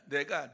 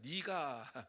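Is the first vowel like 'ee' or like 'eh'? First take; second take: eh; ee. First: The first vowel sounds like 'eh'. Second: The first vowel sounds like 'ee'. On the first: This is how we usually say it. "우리는 이렇게 발음을 하지만은" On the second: This is how entertainers usually say it. "보통 연예인들은 이것을 니라고 하죠"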